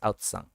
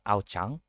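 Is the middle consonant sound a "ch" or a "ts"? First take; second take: ts; ch. First: The middle consonant is a "ts" sound. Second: The middle consonant is a "ch" sound. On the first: The speaker calls it right. "but it's Aotsang" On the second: The speaker calls it wrong. "So like the sea is not Aochang"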